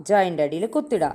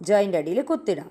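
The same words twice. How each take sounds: Both takes have the same delivery.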